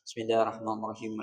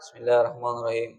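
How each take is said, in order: First: Every letter is pronounced clearly and audibly. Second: It is slurred, with half the letters dropped. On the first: The speaker calls it right. "Wajib dia ucapkan terdengar sekira-kiranya dia dengar dewek" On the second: The speaker calls it wrong. "dia mengucapkan tapi tidak jelas"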